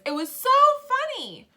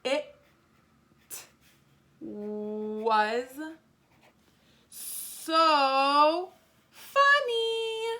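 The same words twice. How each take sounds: First: High, loud exclamation stressing "so"; full of feeling. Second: Very slow, rising to high and loud; stretched-out writing pace. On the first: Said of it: "I was really, had a lot of feelings". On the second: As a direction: stretch each word, building to an exclamation. Writing the exclamation sentence slowly. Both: Shown as a demonstration.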